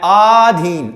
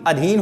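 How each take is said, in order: First: The first vowel is a long 'aa' sound. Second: The first vowel is a short 'a' sound. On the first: The speaker calls it wrong. "बिल्कुल गलत" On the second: The speaker calls it right. "अधीन होता है"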